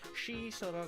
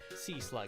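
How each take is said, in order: First: The first word begins with a sh sound. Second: The first word begins with a plain s sound. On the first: "It'd be like she slug" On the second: "when you say like C slug"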